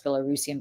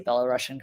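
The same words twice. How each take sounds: First: Belarusian said as Bela-ROO-sian; proper pronunciation. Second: Belarusian said as Bela-RUSH-ian; pointed Belarusian rhymed with Russian; her own pronunciation. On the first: Apologizing to listeners, careful Belarusian as Bela-roo-sian. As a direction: correct yourself to Belarusian with a long oo. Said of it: "I'm sorry, it's Belarusian". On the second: Making a political point to listeners, Belarusian said as Bela-Russian. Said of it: "but I would say Belarusian". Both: Shown as a demonstration.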